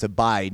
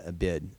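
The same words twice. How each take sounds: First: "abide" with a long i, rhyming with side. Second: "a bid" with a short i, rhyming with lid; "a bid" tossed off softly, short i as in kid; short-i mispronunciation. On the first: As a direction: say "abide" as a-BIDE, with the eye vowel. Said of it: "some people probably pronounce it that way". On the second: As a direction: say "a bid" as the wrong reading of abide, short vowel. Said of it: "not a bid". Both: Shown as a demonstration.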